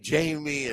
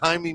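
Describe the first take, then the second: First: The name sounds like the English name Jamie. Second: The name does not sound like English Jamie. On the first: The speaker calls it wrong. "I would say Jamie" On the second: The speaker calls it right. "I know how to say it now"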